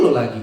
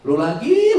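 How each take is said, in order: First: "lu lagi" loud but dropped low and falling; weary grumble. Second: High, loud rising "Lu lagi"; exasperated shout. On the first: Same person in the cramped house, loud falling grumble. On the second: Person fed up in a cramped house, loud exasperated cry. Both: Retold or imitated.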